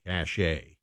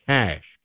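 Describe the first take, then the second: First: "cache" with an added ay ending, softer; two-syllable pronunciation. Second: "cache" as a single syllable, cash; one-syllable pronunciation. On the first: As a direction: say "cache" as cash-AY. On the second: Tries two pronunciations of cache. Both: Shown as a demonstration.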